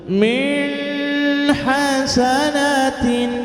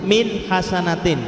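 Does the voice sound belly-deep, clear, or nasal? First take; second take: nasal; clear. First: The words are voiced through the nose. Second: The words are read plainly and clearly. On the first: The speaker calls it wrong. "pakai suara hidung yang dikenal dengan bacaan khayshum" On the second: The speaker calls it right. "ini bacanya jelas, tekanannya di situ"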